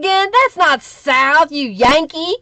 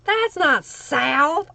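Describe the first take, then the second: First: Slow, louder teasing scold; mock indignant. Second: Slow, back at normal volume. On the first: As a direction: drawl it out like a proud Southerner scolding a Yankee. Mock scolding a Michigan viewer. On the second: Pretend. Repeating the teasing retort, softer.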